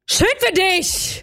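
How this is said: It sounds shocked, with a little shout.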